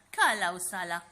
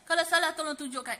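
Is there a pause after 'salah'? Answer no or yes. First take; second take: yes; no. First: There is a pause after the second word. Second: It runs on quickly with no pause. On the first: The speaker calls it right. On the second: The speaker calls it wrong.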